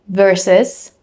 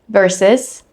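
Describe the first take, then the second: The two takes are said the same way.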